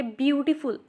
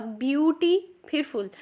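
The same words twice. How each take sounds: First: Said in the usual way. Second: "ब्यूटी", then "फुल" as separate parts; broken into parts. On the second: Shown as a demonstration. Teacher shows learners the parts of a longer word, syllables split. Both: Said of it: "अब ब्यूटी फिर फुल".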